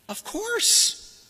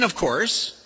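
First: High, sarcastic of course. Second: Said in the usual way. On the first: Acted. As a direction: say it with a smirk. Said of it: "But he doesn't mean "of course". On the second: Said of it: "But he doesn't mean".

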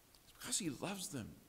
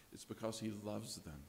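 First: Softer, higher, pleading with love; tender pleading. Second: Much softer, quietly stated; softly said. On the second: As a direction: say it gently and low. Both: Shown as a demonstration. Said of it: "The doctor begins to plead".

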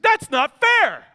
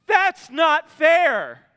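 First: Put-on high, loud, slow childish protest; kid whining. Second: Loud, very slow, higher wronged whine; childish protest. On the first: Son protesting to dad, high loud whine. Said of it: "He said". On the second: Retold or imitated. Praying child complaining to God, slow loud whine. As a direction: drag it out like a sulking kid. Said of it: "Are we the kid that says".

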